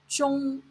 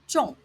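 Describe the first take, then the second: First: The word is said on a high level tone. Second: The word is said on a falling tone. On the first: "first tone zhong" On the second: "fourth tone zhong"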